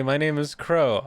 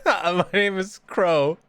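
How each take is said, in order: First: Said in the usual way. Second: Higher, slow mock self-introduction; a lightly put-on name reveal, dragged out; put-on intro voice. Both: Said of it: "I was just doing a bit".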